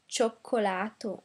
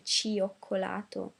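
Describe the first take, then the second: First: The i is silent, merged into one sound. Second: The i is sounded as a separate syllable. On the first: The speaker calls it right. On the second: The speaker calls it wrong.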